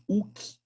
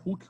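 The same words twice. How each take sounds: First: HOOKE said like "uk", no H sound; Hooke with silent H. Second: HOOKE said like "huk", breath on the H; Hooke with sounded H. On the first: Teacher naming the law to students, Hooke with silent H. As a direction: drop the H at the start of Hooke. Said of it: "ou Hooke, como queiram pronunciar". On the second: Teacher offering students another pronunciation, Hooke with sounded H. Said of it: "como queiram pronunciar". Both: Shown as a demonstration.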